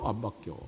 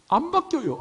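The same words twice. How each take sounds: First: Low quiet aside. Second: High teasing squeal. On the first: Preacher answering his own question, soft low aside. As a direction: drop way down, soft and knowing. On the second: Preacher teasing his flock about dialect, high playful squeal. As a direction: jump way up, playful and mocking. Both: Acted.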